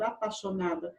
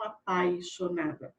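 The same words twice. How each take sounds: First: "apaixonada" said as "apaxonada", no glide; dropped I. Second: "apaixonada" with the I clearly sounded in "pai"; full "ai" sound. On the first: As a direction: leave the I out of "apaixonada": a-pa-xo-na-da. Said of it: "grafada sem a letra I". ("apaixonada" sem o I, como "apaxonada") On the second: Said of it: "e não apaixonada". ("apaixonada" com o I de "pai" pronunciado) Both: Shown as a demonstration.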